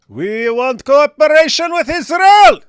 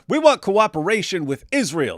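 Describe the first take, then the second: First: It is said in a put-on character voice. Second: It is said in his normal reading voice.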